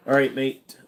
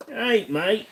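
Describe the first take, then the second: First: Put-on a light Aussie accent on "All right, mate"; "All right, mate" said lightly in an Australian accent. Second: A much higher, sing-song Aussie "All right, mate" rising at the end; "All right, mate" pitched way up in a cheery Australian accent. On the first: Streamer greets chat in a mild Australian accent. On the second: Acted. Streamer repeats the greeting in an exaggerated high Australian accent. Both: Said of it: "It's a very decent Aussie accent".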